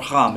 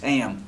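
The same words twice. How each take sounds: First: The name is said in a plain accent. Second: The name is said in an East Texas accent.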